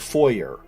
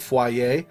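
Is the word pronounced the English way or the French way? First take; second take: English; French. First: The word is pronounced with an English-style sound. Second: The word is pronounced with a French-style sound. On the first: "We pronounce it the English, the, the English language way" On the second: "like foyer for French"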